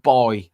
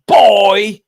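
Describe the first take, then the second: First: Said in the usual way. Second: Put-on "boy" punched out high and loud; hard stress on boy. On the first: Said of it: "Really emphasize the word". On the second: Shown as a demonstration. Showing the AI how to say "boy", emphatic and derogatory. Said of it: "really go hard on the".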